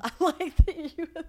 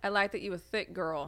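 First: Laughing while repeating. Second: Lightly voiced guy; imitating a guy. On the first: Retold or imitated. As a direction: giggly repeat of the line. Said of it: "repeating his line". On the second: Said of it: "He said what?".

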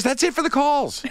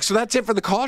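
First: "That's it for the calls" very high, falling at the end; high-pitched, amused verdict on "That's it for the calls"; firm confirmation. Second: "So that's it for the call?" high, rising at the end; high-pitched query on "that's it for the call"; checking question. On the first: Caller confirms in retold answer. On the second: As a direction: ask "that's it for the call" with a hopeful lift. Hopeful question, answered by caller. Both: Retold or imitated.

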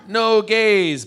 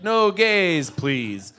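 First: High, loud, drawn-out declaration; emphatic and stretched; blunt exclusion. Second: Mock-polite refusal; kind of politely. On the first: Acted. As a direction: belt it out as a blanket ban. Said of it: "what they're saying is". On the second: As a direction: turn the ban into a courteous request. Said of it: "but kind of politely".

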